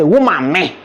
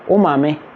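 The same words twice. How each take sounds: First: It is said in a mocking, insulting tone. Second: It is said in a plain, harmless tone. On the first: It is an insult. "it's a crime. It's an insult" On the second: It is harmless. "is it a crime? It's not a crime"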